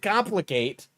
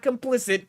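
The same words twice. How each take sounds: First: "complicate" with a clear -cate ending; "complicate" stressed as the correction; correct word. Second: "complicit" said instead, ending -plicit; "complicit" as the mistaken reading; wrong word. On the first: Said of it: "not complicit". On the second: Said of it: "complicate, not complicit". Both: Shown as a demonstration.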